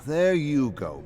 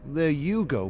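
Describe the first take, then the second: First: Raised, louder needling jab; mocking friend. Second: Raised, louder needling jab, stress on you; mocking friend. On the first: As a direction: needle him, loud and high. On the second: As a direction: throw it back at him. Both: [name] taunts David in bar.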